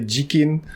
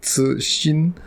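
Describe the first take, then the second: First: The name begins with a j sound. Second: The name begins with a ts sound. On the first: This is how Japanese speakers say it. "So Japanese people say Jikin" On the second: This is closest to the original pronunciation. "The closest to the actual pronunciation"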